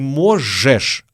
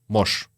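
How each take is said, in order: First: The word is said in full, both syllables clear. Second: The word is reduced to one short syllable. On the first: The speaker calls it wrong. "Не можешь" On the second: The speaker calls it right. "а можешь. Когда мы говорим быстро, мы говорим именно так"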